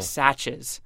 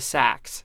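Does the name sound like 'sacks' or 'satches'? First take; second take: satches; sacks. First: It is said as two syllables, like 'satches'. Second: It is said as one syllable, like 'sacks'. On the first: The speaker calls it wrong. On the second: The speaker calls it right.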